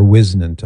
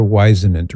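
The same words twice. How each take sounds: First: Whisenant with a short i; alternative pronunciation. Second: Whisenant with a long i; alternative pronunciation. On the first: Host offering another guess, Whisenant said WIZ-nunt. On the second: Host unsure of an author's name, Whisenant said WISE-uh-nunt. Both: Shown as a demonstration. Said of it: "I don't know how he pronounced it".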